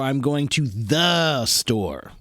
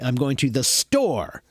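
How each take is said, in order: First: The stress falls on the word the. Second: The stress falls on the word store. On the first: It is a specific store, not any store. "That means a specific store... that's where the accent is" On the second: The place is the most important part. "I put the accent on the place"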